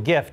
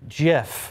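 First: The word begins with a hard G sound. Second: The word begins with a soft J sound. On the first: "to prove it should be with a hard G" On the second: "the creator of the image format says it is pronounced Jif"

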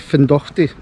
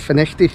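First: The name is said as Fin-dock-ty. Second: The name is said as Fin-eck-ty. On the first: The speaker calls it wrong. "I'll say Findochty" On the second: The speaker calls it right. "it's actually apparently Finechty"

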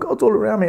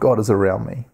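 First: It is said in a frightened, alarmed way. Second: It is said in a warm, loving way. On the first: Being surrounded by God feels threatening. The speaker calls it wrong. "he's not saying it in a scary way" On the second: Being surrounded by God feels comforting. The speaker calls it right. "with an attitude of love"

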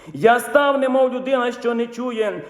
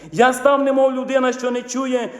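The two takes are said the same way.

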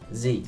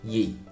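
First: The word begins with a z sound. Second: The word begins with a y sound.

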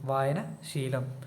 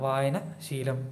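No difference in how they are said.

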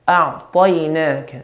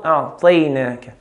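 First: The vowel after 't' is a clear open 'a'. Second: The vowel after 't' is between 'a' and 'i'. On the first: The speaker calls it right. "We want a clear fatha" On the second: The speaker calls it wrong. "Not a'tainaka. Tay is in between"

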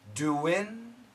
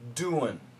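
First: The word ends with a short 'in' sound. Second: The word ends with a reduced 'un' sound. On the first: "we can say in" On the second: "and we can say un, which is basically a schwa sound"

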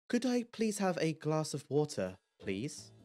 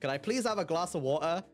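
First: It is said in a posh accent. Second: It is said in a Cockney accent.

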